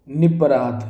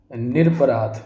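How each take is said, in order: First: निपराध said as "ni-paraadh" without the r; wrong form. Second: निरपराध said as "nir-aparaadh" with the r kept; correct form. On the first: Teacher reads the misspelling aloud, निपराध without the r. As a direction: say निपराध with no r after ni. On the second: Teacher gives the correct word, निरपराध with the r sounded. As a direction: say निरपराध with a clear r after ni. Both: Shown as a demonstration.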